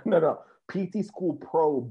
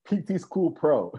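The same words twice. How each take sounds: First: "Probe" said slowly, stressing the final B; slow, with a laugh: "Probe", not "Pro"; amused correction; correcting stress. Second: "Pro" said slowly, with no final B; slow, the wrong way: "Pro"; mock the wrong spelling; wrong version. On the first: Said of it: "with a B". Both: Shown as a demonstration.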